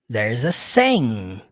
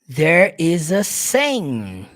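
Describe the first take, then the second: First: There is is joined into one syllable. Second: There is is said as two separate words.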